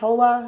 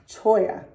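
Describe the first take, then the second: First: The middle consonant is an L sound. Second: The middle consonant is a Y sound. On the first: The speaker calls it wrong. "It is not Tola" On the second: The speaker calls it right. "That was Choya"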